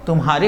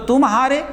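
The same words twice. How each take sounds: First: Said in the usual way. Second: "तुम" pitched high, set apart from "हारे"; high "तुम", slight break, then "हारे"; juncture between words. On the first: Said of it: "तुम्हारे हो गया बेटा". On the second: Shown as a demonstration. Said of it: "यही संगम चिन्ह है।".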